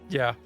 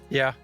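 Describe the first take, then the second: Both takes have the same delivery.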